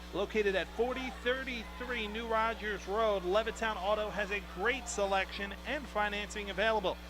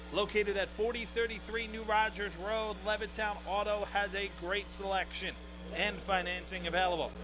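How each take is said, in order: Both takes have the same delivery.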